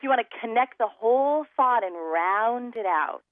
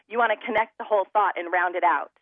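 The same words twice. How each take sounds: First: The words flow together smoothly without hard breaks. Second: The words start with hard glottal stops, sounding choppy. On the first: The speaker calls it right. "So you want to connect the whole thought and round it out" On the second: The speaker calls it wrong. "I'm smacking my vocal cords together"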